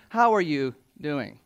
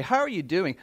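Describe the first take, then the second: First: Sincere, unhurried "How are you doing?" with weight on "How"; caring. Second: Said in the usual way. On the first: Shown as a demonstration. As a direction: ask "How are you doing?" like you truly want to know. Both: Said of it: "No, no, no".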